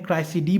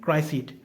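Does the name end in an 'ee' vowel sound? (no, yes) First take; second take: yes; no. First: The name ends with an added 'ee' vowel. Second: The name ends on a consonant, no final vowel. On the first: "क्राइसिडी कहते हैं" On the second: "मैं यहां पर क्राइसिड कहता हूं"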